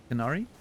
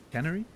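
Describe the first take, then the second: First: "Canary" as a question, stressed on the middle syllable, ca-NAR-ee; trying out pronunciation. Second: "Canary" as a question, stressed on the first syllable, CAN-uh-ree; trying out pronunciation. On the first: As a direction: test "Canary" with an open second-syllable a, rising. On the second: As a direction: test "Canary" front-stressed, rising at the end. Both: Shown as a demonstration. Streamer unsure how to greet Mister Canary, tentative pronunciation. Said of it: "really bad at pronouncing words".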